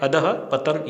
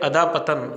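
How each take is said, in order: First: A breathy h sound follows 'dha'. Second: A long 'aa' vowel follows 'dha', with no breath. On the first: The speaker calls it right. "ध के बाद में विसर्ग की ध्वनि" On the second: The speaker calls it wrong. "ये अशुद्ध है"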